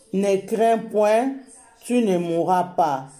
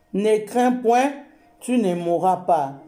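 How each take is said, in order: Both takes have the same delivery.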